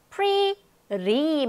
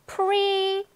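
First: Pretty as a long PREE and a tapped "ree"; rolled T. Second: Pretty as a high, long PREE, pause, "tee" with clear T; separated syllables. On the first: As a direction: roll the T in "pretty" like an r. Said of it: "마구마구 굴려 이렇게". (pretty의 T를 '리'처럼 굴려서) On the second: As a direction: split "pretty" in two slow beats. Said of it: "더 강하고 높고 길게 발음이 됩니다". (pretty를 '프리, 티'로 길게 끊어서) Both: Shown as a demonstration.

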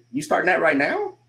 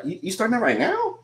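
First: "now" lifted at the end; rising doubtful question. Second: "now" swooped high, disbelieving; exaggerated rising tune. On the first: Coach quotes a doubter, voice rising on "now". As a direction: let "You starting that right now?" rise on "now". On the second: Coach repeats the doubter's question, voice swooping up on "now". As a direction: overplay the climb up to "now". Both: Shown as a demonstration. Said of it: "you hear the voice go up at the end".

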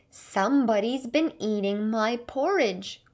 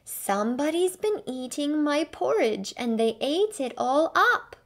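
First: Growling Papa Bear. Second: Higher, louder little bear's upset cry; a small cub wailing over lost porridge; crying Baby Bear. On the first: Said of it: "growled the Papa Bear". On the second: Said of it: "cried the Baby Bear". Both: A narrator's reading.

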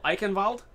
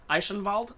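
First: "Eichenwald" with a k for ch and a German v for w; German-style with k. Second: "Eichenwald" with sh for ch and a German v for w; German-style with soft ch. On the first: Gamer testing the map name, "Eichenwald" said eye-ken-valt. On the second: Gamer testing the map name, "Eichenwald" said eye-shen-valt. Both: Shown as a demonstration. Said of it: "kind of a slight German accent".

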